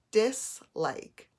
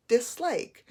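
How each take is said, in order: First: "dislike" broken as dis, pause, like; split into syllables. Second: Said in the usual way. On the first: Shown as a demonstration. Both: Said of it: "it has two syllables".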